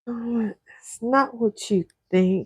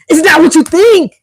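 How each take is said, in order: First: It sounds nervous and uneasy. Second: It sounds frustrated and annoyed.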